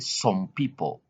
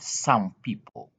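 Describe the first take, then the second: First: The vowel in 'some' is an 'o' sound. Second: The vowel in 'some' is an 'uh' sound. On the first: The speaker calls it wrong. "don't say some people" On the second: The speaker calls it right. "but some people"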